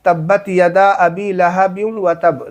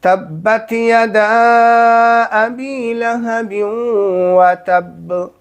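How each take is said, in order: First: लहब joined to व तब as लहबिव तब, without stopping; wrong recitation. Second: Slow recitation with a clear break after लहब before व तब; correct recitation. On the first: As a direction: show the common mistake, running लहब into व तब. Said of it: "अब लोग पढ़ते क्या है यहाँ पे". (गलत तिलावत, लहब को व तब से मिलाकर) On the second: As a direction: recite तब्बत यदा अबी लहब slowly, pause, then व तब. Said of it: "ये है सही तरीका।". (सही तरीके से धीरे-धीरे तिलावत, लहब पर ठहरकर) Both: Shown as a demonstration.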